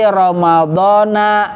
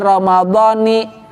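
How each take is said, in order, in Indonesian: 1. Kata ini berakhir dengan vokal 'a'. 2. Kata ini berakhir dengan vokal 'i'.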